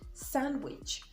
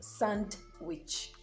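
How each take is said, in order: First: The D is silent in the word. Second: The D is pronounced in the word. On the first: The speaker calls it right. "the silent in sandwich" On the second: The speaker calls it wrong. "and not sandwich"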